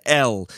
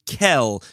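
First: The word begins directly with a vowel. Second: The word begins with a k sound. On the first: It is the formal form used in prayer. "we would pronounce in prayer and in formal enunciations" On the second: It avoids saying the full name in vain. "If we're in a less formal space, so then many would use Kel"

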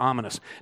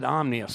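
First: It is said as om-i-nous, with a vowel after m. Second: It is said as om-nious, with m and n together. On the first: The speaker calls it right. "instead of ominous" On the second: The speaker calls it wrong. "you said omnious instead of ominous"

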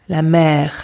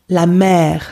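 The two takes are said the same way.

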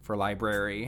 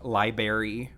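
First: The word is pronounced in the usual standard way. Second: The word is pronounced in a childlike, nonstandard way. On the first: The speaker calls it right. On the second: The speaker calls it wrong.

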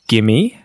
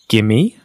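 First: The words merge quickly into one word. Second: The same.

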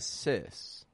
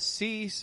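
First: The vowel is a short i sound. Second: The vowel is a long ee sound. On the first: The speaker calls it right. "but a sys" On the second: The speaker calls it wrong. "Not a cease"

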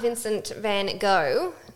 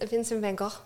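First: The name is said with an English pronunciation. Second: The name is said with a Dutch pronunciation. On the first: The speaker calls it wrong. "it's not Vincent van Gogh" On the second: The speaker calls it right. "because it's Dutch"

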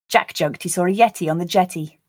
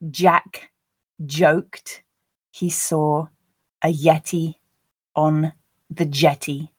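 First: The sentence is read at a natural speed. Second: The sentence is read slowly. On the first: "a second and third time at a more natural pace" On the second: "I'll read them the first time slowly"

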